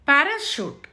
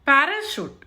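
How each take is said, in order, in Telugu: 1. చివరి అక్షరం sh ధ్వనితో మొదలవుతుంది. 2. చివరి అక్షరం sh ధ్వనితో మొదలవుతుంది.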